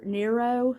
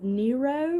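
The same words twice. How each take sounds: First: Second guess at saying Nero; alternative pronunciation. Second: First guess at saying Nero; alternative pronunciation. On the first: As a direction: offer Nero the other way, unsure of it. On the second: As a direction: try one way of saying Nero, unsure of it. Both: Real, not acted. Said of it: "I'm not sure how to pronounce it".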